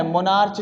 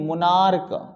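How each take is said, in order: First: मोनार्च ending in "ch", as in march; mispronounced ch. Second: मोनार्क with a firm final "k". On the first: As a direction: say मोनार्च with a final "ch". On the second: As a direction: finish मोनार्क on a hard k, not "ch". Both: Shown as a demonstration. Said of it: "मोनार्च नहीं".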